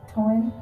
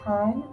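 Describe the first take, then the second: First: The vowel sounds like 'oy', Ocracoke-style. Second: The vowel sounds like 'eye', standard.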